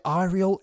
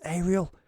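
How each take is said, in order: First: "Arial" said as EYE-ree-ul; alternative pronunciation. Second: "Arial" said as AY-ree-ul; alternative pronunciation. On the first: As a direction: open "Arial" with an "eye" sound. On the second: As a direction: open "Arial" with a long A. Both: Shown as a demonstration. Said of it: "the pronunciation of Arial".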